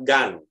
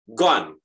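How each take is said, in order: First: The vowel sounds like a short 'a'. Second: The vowel sounds like 'o' in 'dog'. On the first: The speaker calls it wrong. "tidak gan" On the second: The speaker calls it right. "Tapi kalau G, gone"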